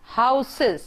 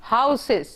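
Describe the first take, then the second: No difference in how they are said.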